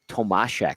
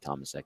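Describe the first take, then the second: First: The middle consonant is an sh sound. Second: The middle consonant is a plain s sound. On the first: This is how the broadcast pronounced it. "but they pronounced it Tomashek" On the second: This is the local, North American way of saying it. "This is North America. This is Tomasek"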